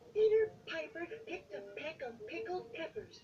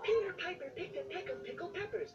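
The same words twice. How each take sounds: First: It is said at a normal speed. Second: It is said fast.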